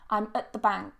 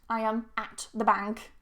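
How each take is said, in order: First: The word at is weakened to a schwa. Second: The word at has a full, stressed vowel. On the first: The speaker calls it right. "It's weakened into a schwa" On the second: The speaker calls it wrong. "I don't say at"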